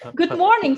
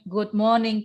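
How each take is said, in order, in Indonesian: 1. Sapaannya diucapkan keras, dengan ekspresi yang hidup. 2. Sapaannya diucapkan datar, dengan sedikit ekspresi. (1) "Suaranya dikeluarkan ya ... Gitu ya" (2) "Jangan ... Gitu kurang ekspresif"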